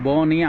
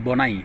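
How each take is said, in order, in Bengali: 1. নামটি 'ee' ধ্বনি দিয়ে শেষ হয়। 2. নামটি 'eye' ধ্বনি দিয়ে শেষ হয়। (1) "ওনার নামের উপরে লেখছেন যে ব নি" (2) "তেমনি সেখানে হবে বি ও এন আই, বনাই"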